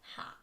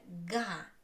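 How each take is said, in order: First: The syllable begins with a breathy h sound. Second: The syllable begins with a hard g sound. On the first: The speaker calls it wrong. "It's not like ha" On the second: The speaker calls it right. "Это га"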